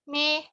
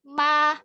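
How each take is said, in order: First: The mouth stays closed, so the vowel sounds like e. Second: The mouth opens fully, giving a clear open a. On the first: The speaker calls it wrong. "Kalau contohnya tidak dibuka" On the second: The speaker calls it right. "Kalau dibuka dengan sempurna, maka insya Allah suaranya akan jelas"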